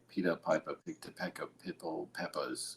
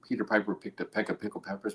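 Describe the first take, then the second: First: It is said in an imitated Barbadian accent. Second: It is said in the speaker's plain accent.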